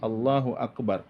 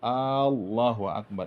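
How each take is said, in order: First: No vowel is drawn out beyond normal length. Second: The first vowel of Allah is drawn out long. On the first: The speaker calls it right. "tapi Allahu Akbar" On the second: The speaker calls it wrong. "Kalau dipanjangkan alif Allah itu, maka menambah tanda istibham"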